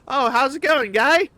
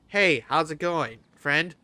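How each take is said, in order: First: It is said in a South Park Canadian accent. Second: It is said in the speaker's normal accent.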